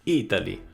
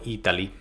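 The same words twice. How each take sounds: First: It is said in an Italian accent. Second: It is said in a plain English accent.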